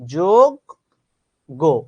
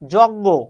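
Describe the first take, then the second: First: The word is said with a 'jog-go' sound. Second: The word is said without a 'jog-go' sound. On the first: The speaker calls it right. "শব্দটা হচ্ছে যোগ্য" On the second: The speaker calls it wrong. "No. যজ্ঞ বলে কোনো শব্দ নেই"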